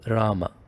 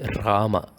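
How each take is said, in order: First: The R is plain and smooth. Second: The R is rough, rolled and grinding. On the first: The speaker calls it right. "it is just Rama" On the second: The speaker calls it wrong. "You don't say Rama. You don't grind it"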